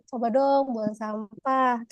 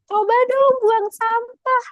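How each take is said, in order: First: It is said in a soft, gentle tone. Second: It is said in a high, harsh tone. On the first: It comes across as a kind reminder. The speaker calls it right. "dengan nada suara yang lebih lemah lembut" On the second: It comes across as nagging and angry. The speaker calls it wrong. "dengan bahasa yang cenderung nadanya tinggi"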